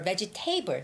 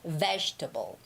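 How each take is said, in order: First: The stress is on the third syllable. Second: The stress is on the first syllable. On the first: The speaker calls it wrong. "A lot of my students would say vegetable" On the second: The speaker calls it right. "Ve has the stress"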